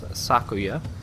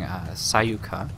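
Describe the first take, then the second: First: The second syllable begins with a K sound. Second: The second syllable begins with a Y sound. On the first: The speaker calls it right. "It's Sakuya" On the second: The speaker calls it wrong. "I was saying the character's name incorrectly. I was saying Sayuka, and kind of switching up the K and Y"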